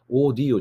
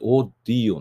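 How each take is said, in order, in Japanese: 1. d の音は短く、一つだけです。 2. d の音は長く伸ばされ、二重になります。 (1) "オーディオじゃなくて" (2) "オーディオになるんです"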